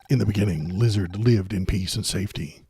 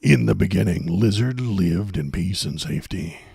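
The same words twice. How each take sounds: First: It is read in a plain, normal voice. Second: It is read in a deep, dramatic trailer voice.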